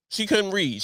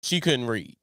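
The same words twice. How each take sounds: First: Couldn't hit harder, a touch higher; couldn't slightly stressed, falling finish. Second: Said in the usual way. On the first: Shown as a demonstration. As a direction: lean on the word couldn't.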